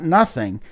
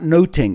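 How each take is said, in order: First: The middle consonant is a th sound. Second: The middle consonant is a t sound. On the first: It is the modern way of saying it. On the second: It is the older way, which makes a pun on looking and spying.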